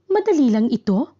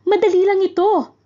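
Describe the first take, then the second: First: It is said as a question. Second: It is said as an excited exclamation. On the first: The speaker is asking whether it is easy. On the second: The speaker is exclaiming joyfully that it is easy.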